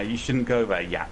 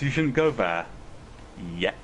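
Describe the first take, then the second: First: It is said plainly, without a menacing tone. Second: It is said menacingly, with a pause before yet. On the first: The speaker calls it wrong. "I thought I had mispronounced it" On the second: The speaker calls it right. "I just wanted to make it sound threatening"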